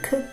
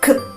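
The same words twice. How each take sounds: First: The k sound is said lightly and softly. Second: The k sound is said strongly and forcefully. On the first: This is the sound of the letter C. "it's it's low stressing C" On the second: This is the sound of the letter K. "But here it is high stressing K"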